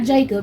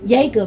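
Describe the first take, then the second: First: The name begins with a J sound. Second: The name begins with a Y sound. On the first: The speaker calls it wrong. "not Jacob" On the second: The speaker calls it right. "Y'all know that that that J's a Y"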